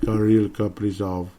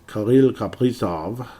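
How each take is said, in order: First: The name is said with a plain English accent. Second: The name is said with a French accent. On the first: The speaker calls it right. "It's more like" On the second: The speaker calls it wrong. "why the French accent"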